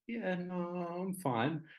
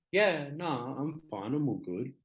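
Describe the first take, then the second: First: High, small retold "I'm fine"; acted attempt to cover up tears; holding back tears. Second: Higher-pitched, casual insistence all is fine; acted-out "nothing wrong here" reassurance; breezy brush-off. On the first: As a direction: imitate putting on a brave front, pitched up. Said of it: "trying to hold back tears". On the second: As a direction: wave off the worry in a lifted voice. Brushing off worker's concern.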